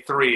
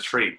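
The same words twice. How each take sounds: First: "three" with tongue-tip TH, not a T; standard TH in three. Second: "tree", the TH turned into a plain T; Irish T for TH. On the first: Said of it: "say three instead of tree". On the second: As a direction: say "tree" with a hard T for "three". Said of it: "three instead of tree". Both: Shown as a demonstration.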